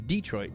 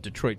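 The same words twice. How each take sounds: First: It is said the way locals pronounce it. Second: It is said the way outsiders pronounce it. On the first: The speaker is from the city. "you are" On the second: The speaker is not from the city. "you probably aren't from there"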